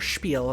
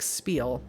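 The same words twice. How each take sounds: First: The word is said with a German pronunciation. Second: The word is said with an English pronunciation.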